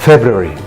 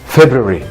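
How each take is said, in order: No difference in how they are said.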